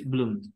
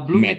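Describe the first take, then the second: First: The ending is only a short d sound. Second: The ending is an extra syllable, like 'id'. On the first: The speaker calls it right. "So it's bloomed just like that" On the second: The speaker calls it wrong. "you don't need to pronounce uh bloom it"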